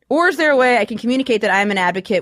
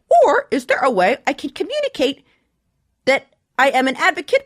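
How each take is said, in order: First: It is read in the speaker's normal voice. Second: It is read in a put-on character voice. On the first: "I'm not going to do that anymore" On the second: "I'll do a voice when I read the question"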